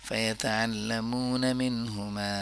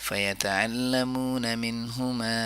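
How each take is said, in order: No difference in how they are said.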